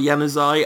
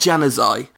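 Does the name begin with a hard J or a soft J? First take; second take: soft; hard. First: The name begins with a soft J sound. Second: The name begins with a hard J sound. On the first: "Whether it's Januzaj or Januzaj" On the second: "it's not a hard J. So it's definitely not Januzaj"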